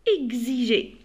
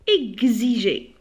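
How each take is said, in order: The two takes are said the same way.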